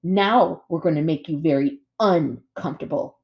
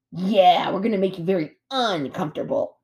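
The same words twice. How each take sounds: First: Deliberate threat, stress on UN; menacing sister bear. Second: Copycat brother bear. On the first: Sister bear threatening the robot, menacing. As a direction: break out UN in uncomfortable. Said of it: "said Nettle". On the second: Brother bear repeating his sister's threat, copycat. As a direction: echo the threat, stretching UN in uncomfortable. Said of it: "Stop repeating me". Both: A narrator's reading.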